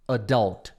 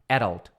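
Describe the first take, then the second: First: The stress is on the second syllable. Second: The stress is on the first syllable. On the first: "E o adult é o forte" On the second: "E a sílaba forte é o E"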